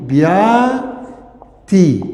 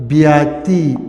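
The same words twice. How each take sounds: First: بیاتی drawn out with every vowel held long; slowly stretched بیاتی. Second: Said in the usual way. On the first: Shown as a demonstration. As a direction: spell out بیاتی by sound for students. (بیاتی را خیلی آهسته و کشیده بگو)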